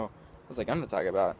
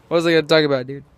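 First: Said in the usual way. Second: Much louder, frustrated demand; frustrated outburst. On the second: Real, not acted. Vlogger losing track of his topic, loud and frustrated. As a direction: blurt it out loudly, exasperated at yourself.

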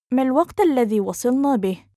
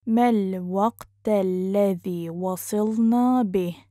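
First: Fast, higher and fluent; quick, lifted model sentence; natural speed. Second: Measured, careful teaching pace. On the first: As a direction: run the question together briskly. Teacher repeats phrase at speed. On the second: Teacher repeats phrase slowly joined. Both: Shown as a demonstration.

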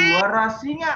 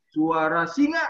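First: Raised, louder and higher; louder call. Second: Said in the usual way. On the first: Shown as a demonstration. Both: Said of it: "kurang keras, kurang keras".

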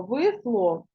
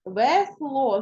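First: Весло said as «висло», first vowel nearing И; Е heard as И. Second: Весло sounded as spelt, with a full Е and stressed О; clear Е in Весло. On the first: Teacher showing pupils what we hear, весло as «висло». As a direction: let the unstressed Е in весло slide toward И. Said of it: "тому ми чуємо". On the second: Teacher showing pupils the spelling, Весло with a clear Е. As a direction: say Весло carefully with an open Е. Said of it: "О падає наголос на О". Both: Shown as a demonstration.

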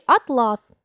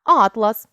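First: Атлас with stress on the last syllable, ат-ЛАС; atlas as a fabric. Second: Атлас with stress on the first syllable, АТ-лас; atlas as a book of maps. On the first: Teacher naming the fabric, last syllable stressed. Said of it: "тканина". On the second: Teacher naming the map collection, first syllable stressed. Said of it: "збірка мап". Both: Shown as a demonstration.

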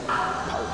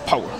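First: Breathy whisper to himself. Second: Said in the usual way. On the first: Real, not acted. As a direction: whisper it to psych up.

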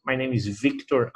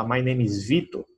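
First: "Victor" said with a clear k, "VIK-tor"; English pronunciation. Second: "Vitor" said the Brazilian way, "VEE-tor", no k; Portuguese pronunciation. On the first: Teacher showing the English form of his name. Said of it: "ele entende perfeitamente". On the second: Teacher showing how an American hears his name. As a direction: give "Vitor" its Portuguese sound, without the c. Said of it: "ele, Vitor". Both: Shown as a demonstration.

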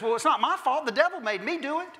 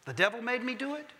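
First: High, bright mock protest with a laugh; Eve's excuse. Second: Lightly voiced comic catchphrase, pitched up; a quick nod to the comedian's line; Flip Wilson catchphrase. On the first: Eve to God, laughing it off, high mock innocence. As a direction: play Eve shrugging off the blame, laughing. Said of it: "she turns immediately and says". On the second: Preacher to congregation, light Flip Wilson catchphrase. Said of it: "Flip Wilson".

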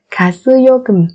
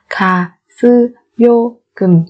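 First: Said in the usual way. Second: Slow, separated syllables for learners; careful teacher's slow model. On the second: Shown as a demonstration. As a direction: spell it out slowly, beat by beat.

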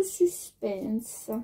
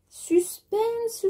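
First: Low, drawn-out echo of suspense; mock-ominous suspense. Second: High, drawn-out mock-suspense call; playful suspense. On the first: Vlogger building mock tension before measuring, low drawn-out suspense. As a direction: drop it down and stretch it out. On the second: Vlogger teasing viewers before measuring fabric, high playful suspense. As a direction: sing it out high to tease.

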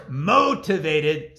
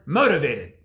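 First: "motivated" said as "mow-tivated"; punning pronunciation. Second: Said in the usual way. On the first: Shown as a demonstration. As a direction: stretch the first syllable of "motivated" into "mow". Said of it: "sounds like the word motivated". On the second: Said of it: "the word motivated".

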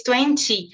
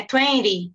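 First: "twenty" with a full clear t and n, read like Portuguese; twenty spelled out as in Portuguese. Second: "twenty" with the t dropped, like "tweny" or "tweri"; American "twenty". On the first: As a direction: say "twenty" letter by letter, Portuguese style. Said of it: "como se a gente fosse ler no português". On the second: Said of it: "pronúncia americana". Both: Shown as a demonstration.

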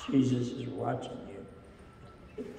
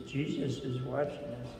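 First: Slow and softer, each word weighted; slow, solemn reminder. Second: Said in the usual way. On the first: Shown as a demonstration. Pastor reminding the children of the lesson, slow and solemn. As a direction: let it sink in slowly. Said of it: "we wanna remember that". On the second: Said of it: "So he says".

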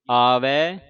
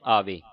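First: ਆਵੇ drawn out as "aavai"; two-lava ending. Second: ਆਵੇ with a close "ve"; wrong single-lav ending. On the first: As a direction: end ਆਵੇ slowly on open "ai". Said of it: "ਇੱਥੇ ਲੱਗੀਆਂ ਦੋ ਦਲਾਵਾਂ". (ਆਵੇ ਨੂੰ ਹੌਲੀ, ਦੁਲਾਵਾਂ ਨਾਲ "ਆਵੈ") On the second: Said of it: "ਆਵੇ ਹੁੰਦਾ ਇੱਕ ਲਾਂ". (ਆਵੇ ਦਾ ਅੰਤ ਇੱਕ ਲਾਂ ਨਾਲ "ਵੇ") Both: Shown as a demonstration.

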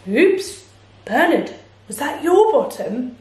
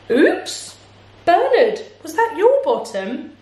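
First: Lightly voiced apologetic bear; a modest oops from a storybook bear; bear character. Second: High-pitched, apologetic bird; bird character. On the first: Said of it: "said Bear". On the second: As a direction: start on a very high chirpy oops. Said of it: "said Bird". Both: A narrator's reading.

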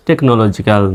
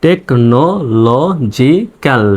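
First: Said in the usual way. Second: technological very slowly, syllable by syllable; broken into syllables. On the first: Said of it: "সহজে উচ্চারণ করতে পারবেন". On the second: Shown as a demonstration. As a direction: break technological into separate, drawn-out pieces. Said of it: "ভেঙে ভেঙে এভাবে উচ্চারণ করলে".

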